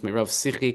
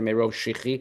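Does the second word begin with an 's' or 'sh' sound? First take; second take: s; sh. First: The second word starts with an 's' sound. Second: The second word starts with an 'sh' sound. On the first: The speaker calls it right. "but it's Merov Sichi" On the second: The speaker calls it wrong. "everybody reads this word wrong"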